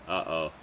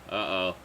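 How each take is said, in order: No difference in how they are said.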